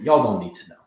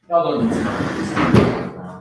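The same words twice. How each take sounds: First: Said in the usual way. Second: Dragged out, slow and heavy; slow drawn-out voice. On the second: Pretend. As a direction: stretch each word out slowly. Repeats line in slow put-on voice.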